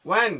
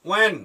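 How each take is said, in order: The two takes are said the same way.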